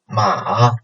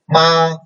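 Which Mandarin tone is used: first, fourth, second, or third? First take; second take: third; first. First: It is said with the third tone. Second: It is said with the first tone. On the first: "third tone" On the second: "The first tone"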